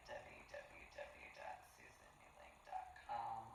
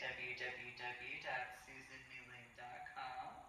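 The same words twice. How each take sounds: First: Breathy whispered web address; whispering. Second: Said in the usual way. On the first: Real, not acted. Website repeated as a whisper.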